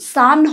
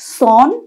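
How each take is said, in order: First: The vowel is an open unrounded 'a' sound. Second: The vowel is a rounded 'o' sound. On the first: The speaker calls it right. "এই উচ্চারণটাও কিন্তু সান হবে" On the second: The speaker calls it wrong. "সন নয়"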